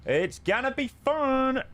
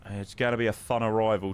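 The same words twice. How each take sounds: First: Excited. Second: Said in the usual way. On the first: Real, not acted. Streamer hyping the arrival.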